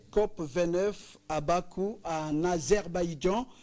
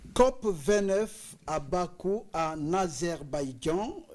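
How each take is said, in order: Both takes have the same delivery.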